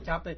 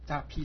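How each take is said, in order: First: The second syllable is pronounced bei. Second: The second syllable is pronounced pi. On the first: "我把它改过来读加倍吧" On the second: "是读扎批的"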